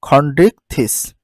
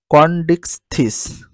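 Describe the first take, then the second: First: খন্ডিকথিস with a breathy kh, spoken slowly; slow, careful খন্ডিকথিস, kh aspirated; correct pronunciation. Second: কন্ডিকথিস slow, with an unaspirated k; drawn-out কন্ডিকথিস, plain k at the start; first reading. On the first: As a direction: model the right খন্ডিকথিস for the class, kh and th breathy. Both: Shown as a demonstration. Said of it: "তাহলে সঠিক উচ্চারণ হচ্ছে খন্ডিকথিস".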